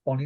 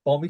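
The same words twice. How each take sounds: First: "Bonnie" with an n in the middle, bo-nee. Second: "Bommy" with an m in the middle, po-mee; Scouse Bommy. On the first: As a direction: say "Bonnie" with a clear n sound. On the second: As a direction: say "Bommy" with a clear m sound, the Scouse way. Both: Shown as a demonstration. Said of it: "Is it Bonnie night or Bommy night?".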